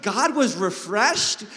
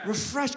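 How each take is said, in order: First: "God was refreshed" drawn out slowly, "was" lifted; slow emphasis on was. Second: Said in the usual way. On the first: Shown as a demonstration. Preacher spelling out the verse slowly, stressing "was". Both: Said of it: "say the last word?".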